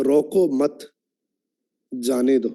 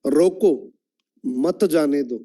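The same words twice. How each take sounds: First: "रोको मत" run together, pause, then "जाने दो"; pause after मत. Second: "रोको" alone, pause, then "मत जाने दो" together; pause after रोको. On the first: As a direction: join मत to रोको, break, then let जाने दो fall lower. ("रोको मत" के बाद विराम) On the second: ("रोको" के बाद विराम) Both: Shown as a demonstration. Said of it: "सिर्फ टोन चेंज करके बोलता हूं".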